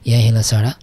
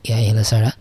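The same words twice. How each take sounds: The two takes are said the same way.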